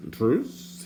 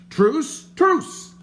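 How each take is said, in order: First: Tentative question. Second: Loud, very high panicked cry for truce; frantic calling out. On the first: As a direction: ask it cautiously, half hopeful. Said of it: "he inquired again". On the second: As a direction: yell it out to stop the sword. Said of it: "called the stranger". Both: A narrator's reading.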